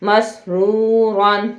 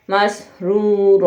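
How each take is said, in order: First: مسرورن read slowly with the -an ending sounded; with tanween, no stop. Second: مسرورا ending in a long aa, the n dropped; pausal form with long a. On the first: Teacher repeats the rule for students, nunation sounded. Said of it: "اور یہی دو زبر پر وقف کرنے کا رول ہے". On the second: Teacher demonstrates the stop for students, long aa. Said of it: "آگے آئے". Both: Shown as a demonstration.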